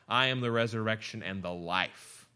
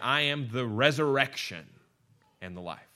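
First: The stress is on "life". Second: The stress is on "resurrection".

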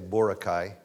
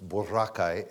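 First: It is said the American way. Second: It is said the Philippine way.

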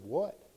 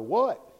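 First: It is said at normal loudness. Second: It is said loudly, as a cry.

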